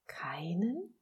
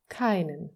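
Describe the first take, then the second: First: Softly incredulous, sharply rising tune; disbelieving question. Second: KEINEN stated firmly with a falling tune; firm repetition. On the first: Little soul can hardly believe what God says, incredulous rising question. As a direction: ask KEINEN with the pitch climbing in disbelief. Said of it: "konnte kaum glauben, was Gott da sagte". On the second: God repeats it to the doubting little soul, firm and final KEINEN. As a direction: confirm KEINEN with weight, no question in it. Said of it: "wiederholte Gott". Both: A narrator's reading.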